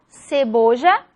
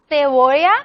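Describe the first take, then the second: First: The first consonant is pronounced like s. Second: The first consonant is different from s. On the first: This is how it is said with seseo. "el seseo iguala" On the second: This is how it is said around Madrid. "En la región de Madrid se dice"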